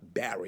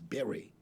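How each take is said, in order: First: The name does not sound like 'berry'. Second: The name sounds like the word 'berry'. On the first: The speaker calls it wrong. "I say his name is not B- Barry" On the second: The speaker calls it right. "His name is Barry, like a berry"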